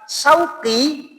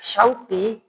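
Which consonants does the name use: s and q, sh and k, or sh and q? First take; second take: s and q; sh and q. First: It begins with 's' and has a deep 'q'. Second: It begins with 'sh' and has a deep 'q'. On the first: It means market. The speaker calls it wrong. "benar qaf tapi depannya sin" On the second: It means longing. The speaker calls it right. "Kalau orang tepat mengucapkan nama saya"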